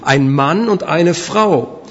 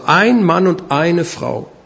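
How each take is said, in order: First: The stress falls on the nouns. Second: The stress falls on the number words. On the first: The partners are a man and a woman. "Gleichzeitig können wir die Betonung auch anders legen" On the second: Only one partner of each is meant. "Das sind Zahlwörter, die hier gebraucht werden"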